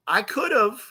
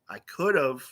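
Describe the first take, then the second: First: High, lilting mock admission; teasing concession. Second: Matter-of-fact concession. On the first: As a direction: lift it up high, playfully conceding. Playful comeback to mad friend. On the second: Retold or imitated. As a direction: drop it down and concede drily. Same comeback said again, lower.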